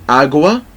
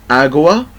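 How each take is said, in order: No difference in how they are said.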